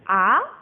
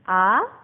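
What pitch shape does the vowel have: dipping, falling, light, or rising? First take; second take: rising; rising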